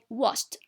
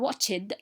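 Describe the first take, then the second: First: The ending is pronounced as a t sound. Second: The ending is not pronounced as a t sound. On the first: The speaker calls it right. "we say watched. ... the ed here is pronounced t" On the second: The speaker calls it wrong. "or watched"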